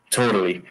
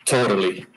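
Both takes have the same delivery.

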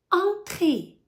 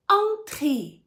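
No difference in how they are said.

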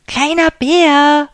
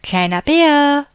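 First: Slow, loud, high stretched call; drawn-out call. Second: Loud high call across the rocks. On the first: Big bear calling, unable to see little bear, slow loud call. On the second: Big bear calling little bear from the cave, loud call. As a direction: call out for him, searching. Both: A narrator's reading. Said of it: "rief der große Bär".

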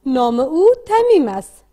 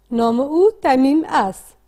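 First: Slow read-aloud model. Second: Slow read-aloud echo. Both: Shown as a demonstration. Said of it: "با صدای بلند بخوانید".

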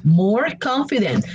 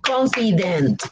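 First: Said in the usual way. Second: "Confident" slowly in three beats, CON-FI-DENT; syllable by syllable. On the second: Shown as a demonstration. Teacher counts three syllables for learners, syllable by syllable. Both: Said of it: "three syllables".

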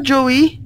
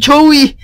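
First: Said in the usual way. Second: Joey from Friends. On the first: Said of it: "Eh, Zoe". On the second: Pretend. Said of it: "Jako v Přátelích".

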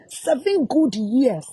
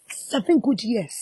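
First: Seven good years drawn out slowly, each word weighted; slow heavy stress on Seven good years; slow emphasis. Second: Said in the usual way. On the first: Real, not acted.

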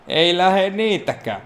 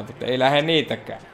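First: Higher, slow put-on moan of "Ei lähe niitäkään"; a drawn-out mock lament; mock whiny echo. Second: Said in the usual way. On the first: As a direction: repeat it in a sulky funny voice.

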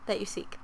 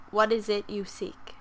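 First: Unvoiced whisper of the line; a secretive whispered echo. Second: Said in the usual way. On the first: Shown as a demonstration. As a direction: breathe it out as a whisper.

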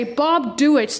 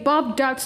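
First: Dewitt's said "doo-its", two syllables; own pronunciation. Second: Duitz said "dowts", one syllable; Justin's pronunciation. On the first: Reactor shows own way after Justin's, Dewitt's as "doo-its". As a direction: split Dewitt's into "doo" plus "its". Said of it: "but I say". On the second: Reactor repeats how Justin's voice says it, Duitz as "dowts". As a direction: say Duitz to rhyme with "shouts". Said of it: "the same as the Dutch language". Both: Shown as a demonstration.

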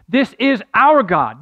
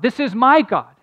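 First: Slow, louder "This is our God" with "our" leaned on; stress on our. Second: "This is my God" with "my" hit hard and louder; stress on my. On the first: Pastor urging listeners to claim God, stressing "our". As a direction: press on "our" and let "God" fall. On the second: Pastor urging listeners to claim God, stressing "my". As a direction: punch "my" to make it personal. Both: Shown as a demonstration. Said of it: "There's a difference between saying".

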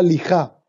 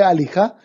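First: Lijá, as if alijá lost its first vowel; wrong dropped-vowel lija. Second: Alijá, a-li-já with the a sounded; correct alijá. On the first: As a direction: say lijá without the opening a. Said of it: "Es como si yo dijera lijá". (di lijá sin la a inicial, la pronunciación incorrecta) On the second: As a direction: say alijá with the full opening a. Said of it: "en lugar de alijá". (di alijá con la a inicial bien sonada) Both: Shown as a demonstration.

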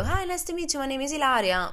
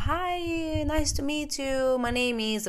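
First: High, sing-song polite hello; nervous girl answering the roommate in English; her own polite greeting. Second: High, slow friendly American greeting; chirpy high voice of the roommate, drawn out; bubbly American guy saying hello. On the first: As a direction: put on a high, eager-to-please voice. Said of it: "E io". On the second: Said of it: "il roommate mi fa". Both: Retold or imitated.

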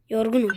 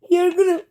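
First: Said in the usual way. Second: Yorgunum said higher and louder, whined out; loud mock whine. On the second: Mocking the tired game character, loud whine. Repeating NPC line, louder.

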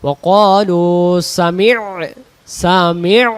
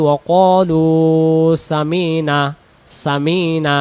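First: সামি' with the ain pressed from the throat; সামি' said clearly with a throaty ain; correct ain. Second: সামি'না said as samina, the ain dropped; সামি'না with the ain left out, a plain s-a-m-i-n-a; wrong pronunciation. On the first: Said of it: "আইন অক্ষর সহ আদায় করতে হলে". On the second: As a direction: say সামি'না without any throat sound. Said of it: "আমাদের ভুল হতে পারে। কেমন করে?". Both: Shown as a demonstration.

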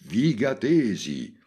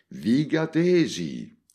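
First: High, loud, drawn-out call; shouted call again. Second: High, loud, slow call to the crowd; shouted call. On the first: Montalbano repeats his call to the crowd over the speakers. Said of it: "ripeté". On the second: Montalbano calls out to the whole circus over the speakers. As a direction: boom it over the loudspeakers. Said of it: "gridò Montalbano". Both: Acted.

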